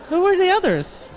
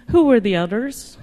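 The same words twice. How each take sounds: First: Incredulous, high. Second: Said in the usual way. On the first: Acted. Repeated punchline, much higher.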